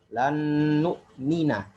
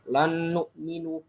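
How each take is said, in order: First: The verb ends with an 'a' vowel. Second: The verb ends with a 'u' vowel. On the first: The speaker calls it right. "harus dibaca dengan fathah" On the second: The speaker calls it wrong. "ada qari membaca ketika nawasib dibaca dengan rafa"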